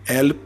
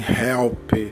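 First: The word starts without an h sound. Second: The word starts with a clear h sound. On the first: This is how French speakers say it. "eles vão falar" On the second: This is not how French speakers say it. "Eles não falam assim"

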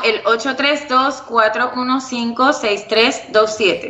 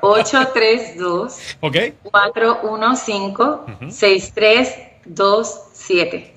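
First: The number is said fast. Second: The number is said slowly.

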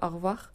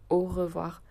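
First: The 're' syllable is swallowed and barely heard. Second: Every syllable, including 're', is fully pronounced. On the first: "Quand on le dit vite dans la vie de tous les jours, c'est plutôt au revoir. En tout cas, moi, je le dis comme ça" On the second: "on dit jamais au revoir"

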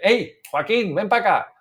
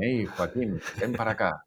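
First: The voice is projected loudly, as if across a room. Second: The voice is close and self-admiring, not projected.

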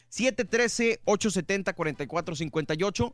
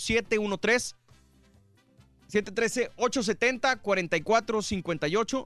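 First: The number is said at normal speed. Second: The number is said more slowly.

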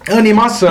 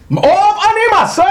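First: It is said flatly, with little energy. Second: It is said with lively, excited energy.

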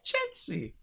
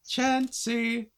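First: It is said in a higher-pitched voice. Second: It is said in a flat, robotic voice. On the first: "it's a bit more high pitched" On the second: "Chansey sounding like a robot"

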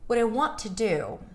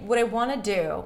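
First: Want is stressed, with only its T reduced. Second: Want to is squeezed together into wanna. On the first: "if I wanna stress the want, then I'm only gonna reduce the T" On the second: "notice I didn't say what I wanna do"

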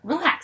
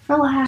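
First: It is said in a dismissive, brushing-off tone. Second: It is said in a soft, gentle voice. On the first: The other person's anger is being waved away. The speaker calls it wrong. "that's how you die" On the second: The other person's feelings are being soothed. The speaker calls it right. "You talk to her in a soft voice"

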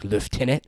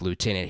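First: It is said in an imperial-sounding accent. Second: It is said in a plain everyday accent.

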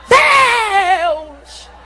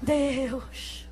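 First: It is shouted loudly. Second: It is said quietly and timidly.

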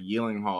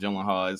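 First: The name begins with a Y sound. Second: The name begins with a hard G sound. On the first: "I think the G is silent or something" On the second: "I'm just so used to calling them Gyllenhaal"

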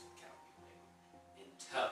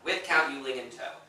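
First: It is said quietly. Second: It is said loudly.

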